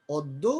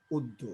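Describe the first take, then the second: First: Said in the usual way. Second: অদ্য said as উদ্য, first vowel rounded; অদ্য pronounced "ওদ্দো"; initial অ as ও. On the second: Shown as a demonstration. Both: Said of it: "ও এর মতো উচ্চারণ হচ্ছে".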